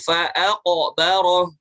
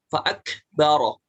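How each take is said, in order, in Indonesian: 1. Huruf tengah itu Q yang dalam, dari tenggorokan belakang. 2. Huruf tengah itu K depan yang ringan dan berhembus. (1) "huruf qaf ya, bukan huruf kaf" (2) "tadi dibacanya kaf. Jadi dihambeskan"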